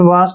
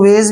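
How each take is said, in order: First: The vowel sounds like 'ah', ending in s. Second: The vowel sounds like 'ay', ending in z. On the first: This is the more common pronunciation. "आ ए को आ की मात्रा लिखेंगे और एस ई को स पढ़ते हैं। ... वॉश ज्यादातर पढ़ता है" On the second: This is a less common pronunciation. "इसको वेज भी पढ़ते हैं"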